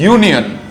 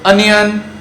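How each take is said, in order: First: It begins with a consonant y sound. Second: It begins with a plain vowel sound. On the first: The speaker calls it right. "It is य, it is not vowel sound, it is a consonant sound" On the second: The speaker calls it wrong. "It is not"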